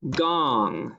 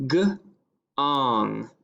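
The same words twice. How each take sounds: First: Said in the usual way. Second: "G-ong" split into first sound, pause, then ending. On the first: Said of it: "the word is gong". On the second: Shown as a demonstration. Teacher sounding out a dictation word, "G-ong" in two separate parts. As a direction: break "G-ong" into g and ong. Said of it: "with ang, ing, ong".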